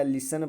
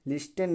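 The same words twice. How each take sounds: First: लिसन as "li-san", t silent; correct pronunciation. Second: लिस्टेन with the t sounded, "lis-ten"; wrong pronunciation. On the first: Teacher giving students the right reading, silent t. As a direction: say लिसन with a plain s and no t. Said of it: "लिसन पढ़ा जाएगा". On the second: Teacher rejecting a misreading for students, t sounded. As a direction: hit an audible t in लिस्टेन. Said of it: "नहीं पढ़ा जाएगा". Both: Shown as a demonstration.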